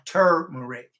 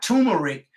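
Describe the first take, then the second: First: The first syllable is said with an r sound. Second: The first syllable is said without an r sound. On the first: The speaker calls it right. "T U R, turmeric" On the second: The speaker calls it wrong. "not turmeric"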